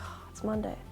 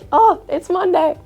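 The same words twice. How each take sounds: First: It is said in a dreading, glum tone. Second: It is said in an excited, happy tone.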